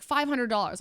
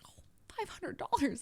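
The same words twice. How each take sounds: First: Said in the usual way. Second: Higher, softer startled echo; retold price shock. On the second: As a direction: repeat the price, taken aback. Her reaction to the price.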